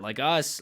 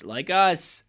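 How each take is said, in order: First: Said in the usual way. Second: Us repeated higher and louder; emphatic us repeated; stress on us. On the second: Real, not acted. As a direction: punch the word us again.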